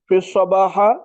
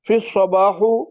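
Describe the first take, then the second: First: The word ends in an a vowel. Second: The word ends in an u vowel.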